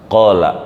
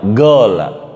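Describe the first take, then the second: First: The first consonant is a deep throat q. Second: The first consonant is a hard g.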